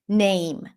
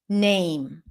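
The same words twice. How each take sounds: No difference in how they are said.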